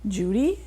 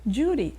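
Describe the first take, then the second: First: The voice rises at the end. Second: The voice falls at the end. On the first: It sounds like a question. The speaker calls it wrong. "that isn't where the stress goes" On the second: It sounds like a statement. The speaker calls it right. "It goes Judy"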